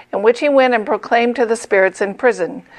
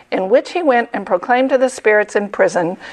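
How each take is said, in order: Both takes have the same delivery.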